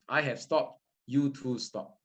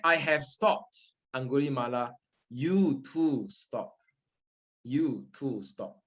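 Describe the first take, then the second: First: Said in the usual way. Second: Calm Buddha's words. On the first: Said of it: "this is the key words". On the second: Retold or imitated. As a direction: speak gently as the Buddha. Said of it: "The Buddha said".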